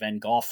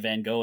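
First: The name is said the British way. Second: The name is said the American way. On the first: "the British say Van Gogh" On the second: "Americans say Van Gogh"

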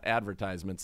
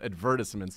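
First: It is said in a plain ordinary way. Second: It is said in a posh British way. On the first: The speaker is an ordinary person. "not advertisements" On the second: The speaker comes from English royalty. "he would only call them advertisements"

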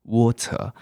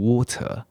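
First: It is said with a British accent. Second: It is said with a British accent.

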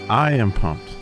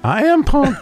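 First: It is said flatly, with little energy. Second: It is said loudly, with lots of energy.

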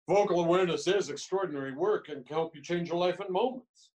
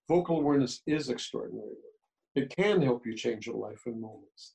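First: The tone sounds boastful and arrogant. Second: The tone sounds calm and sincere. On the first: The claim is made to impress others. The speaker calls it wrong. "Now that's stupid and arrogant" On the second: The claim is a personal truth simply stated. The speaker calls it right. "That's not arrogant. It's my truth"

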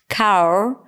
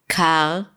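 First: The word ends with a pronounced R sound. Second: The R is dropped, with slight throat friction. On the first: The word changes and sounds funny. The speaker calls it wrong. "it completely changed the word and it sounded funny" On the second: The word is still clear. The speaker calls it right. "just like this slight friction in the back of the throat"

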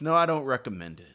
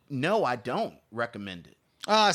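First: It is said firmly and with strong conviction. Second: It is said softly and with reluctance. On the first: The speaker firmly rejects the film. "Say it with my chest" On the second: The speaker regrets having to reject the film. "So it kind of hurts, but I have to say"

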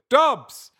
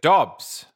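First: The word is shouted loudly. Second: The word is said at normal volume.

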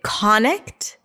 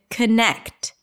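First: The stress falls on the first syllable. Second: The stress falls on the second syllable. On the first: The speaker calls it wrong. "Is it connect or is it connect?" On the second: The speaker calls it right. "It's the second syllable, connect, longer, louder, higher in pitch"

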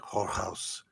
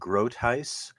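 First: The name has a guttural Dutch pronunciation. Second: The name has a mixed English-Dutch pronunciation.

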